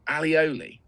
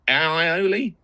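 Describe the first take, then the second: First: The word begins with 'ali', with an l sound. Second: The word begins with 'ai', without an l sound. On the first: This is how Spanish restaurant staff say it. "at the Spanish restaurant they always call it alioli" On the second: This is how it is spelled on the supermarket pot. "it's spelled A I O L I"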